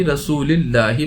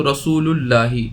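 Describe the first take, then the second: First: रसूलिल्लाही with i before the double l; joined reading with i. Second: रसूलुल्लाही with u before the double l; reading with u ending. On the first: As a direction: link रसूली straight into ल्लाही, no a. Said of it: "तो इसे मिलाकर भी". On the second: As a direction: link रसूल to अल्लाह through an u. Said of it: "रसूलु इसलिए नहीं पढ़ा जाएगा". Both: Shown as a demonstration.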